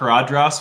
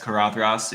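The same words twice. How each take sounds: First: The middle consonant is a plain d sound. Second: The middle consonant is a voiced th sound. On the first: The speaker calls it wrong. "I always thought karadras was with a D sound" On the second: The speaker calls it right. "I guess karadras is a th"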